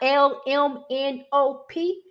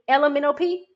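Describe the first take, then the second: First: Each letter is said clearly and separately. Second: The letters are slurred together into one word. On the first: The speaker calls it right. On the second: The speaker calls it wrong.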